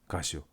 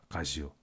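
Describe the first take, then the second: No difference in how they are said.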